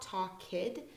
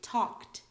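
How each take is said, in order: First: The ending is an extra 'id' syllable. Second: The ending is a short 't' sound. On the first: The speaker calls it wrong. "It's not talk kid" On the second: The speaker calls it right. "Sometimes we pronounce ed as like a T"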